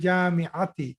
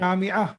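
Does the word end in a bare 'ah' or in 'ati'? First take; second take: ati ending; ah ending. First: The word ends with a full 'ati' ending. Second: The word ends in a bare 'ah' sound. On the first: The grammatical case ending is shown. "I want you to take the sign of the last letter also" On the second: The speaker is stopping at the end of the sentence. "actually you are stopping, so you are right... that is correct way to say"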